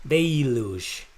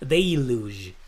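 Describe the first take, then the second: No difference in how they are said.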